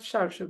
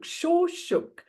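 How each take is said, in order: First: The first vowel sounds like 'ar'. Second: The first vowel sounds like 'or'. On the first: The speaker calls it wrong. "it's not Sharshuk" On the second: The speaker calls it right. "Shorshuk, S O R S H U G"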